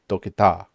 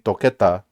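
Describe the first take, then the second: First: The stress falls on the final syllable. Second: The stress falls before the final syllable. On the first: "we'd have to put an accent over the A, so it'd be toqueta" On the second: "normally toqueta"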